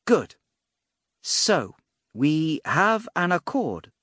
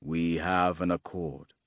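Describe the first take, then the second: First: High, drawn-out mage's proclamation; mage declaring agreement. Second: Low, slow swordsman's reply; solemn swordsman assenting. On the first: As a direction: announce it grandly, pitched up and slow. Mage announces the pact. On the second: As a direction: agree gravely, pitched down and unhurried. Swordsman answers, bowing his head. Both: A narrator's reading.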